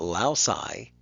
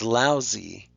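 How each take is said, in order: First: The final vowel is not an ee sound. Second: The final vowel is an ee sound. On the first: The speaker calls it wrong. "it's not lousy" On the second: The speaker calls it right. "that Y has an E sound"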